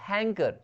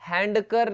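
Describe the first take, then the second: First: The d sound is left out of the word. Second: The d sound is pronounced in the word. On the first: The speaker calls it right. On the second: The speaker calls it wrong.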